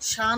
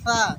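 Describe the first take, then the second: First: It starts with a plain hissing s sound. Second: It starts with the tongue between the teeth. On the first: The speaker calls it wrong. "সা না হয়ে যায়" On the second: The speaker calls it right. "পরিষ্কার যেন সা, সা একটা সুসুর করে আওয়াজ হবে, হাওয়া বার হবে"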